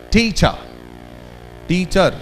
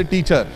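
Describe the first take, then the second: First: "Teacher" with TEA louder and the ending falling away; stress on TEA. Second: "teacher" with both syllables given equal weight; flat equal stress. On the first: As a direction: hit "Tea", let "cher" fall. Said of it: "speak the syllable little more loudly". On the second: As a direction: say "teacher" flat, te and cher the same. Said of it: "we the Indians are flatter". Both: Shown as a demonstration.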